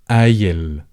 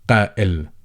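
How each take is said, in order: First: It starts with a glottal stop and has an ee. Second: It starts with a deep k and has a catch. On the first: This is the easier dialect form. "they replaced the glottal stop with an E" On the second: This is the standard form. "give this letter the proper pronunciation"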